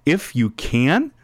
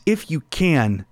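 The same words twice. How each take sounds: First: Slow "If you can," rising on "can" as a pointed question; question thrown back. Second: Slow "If you can." with a falling, unsure tune; doubtful father's plea. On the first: Jesus throwing the father's words back, rising challenge. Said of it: "Jesus then throws it right, the question right back". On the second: Desperate father asking Jesus for help, slow falling plea. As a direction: let "If you can." sink, hoping but doubting. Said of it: "his dad comes to Jesus and says". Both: Retold or imitated.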